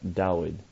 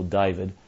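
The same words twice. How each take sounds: First: It is said with a Hebrew-like pronunciation. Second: It is said with an English pronunciation. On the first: This is closer to the original written form. "something more like David" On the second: The name has been anglicised. "you and I call David"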